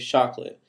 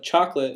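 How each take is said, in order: First: It is said with a Swedish speaker's substitute sound. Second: It is said with the usual English sound. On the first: "they say chocolate" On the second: "instead of chocolate"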